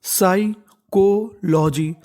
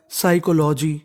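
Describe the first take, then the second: First: psychology stretched out very slowly, syllables separated; teacher sounding out psychology slowly. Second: Said in the usual way. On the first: Shown as a demonstration. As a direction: drag out psychology so learners can follow. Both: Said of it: "तो meaning बन गई".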